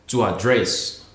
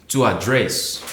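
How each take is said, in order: The two takes are said the same way.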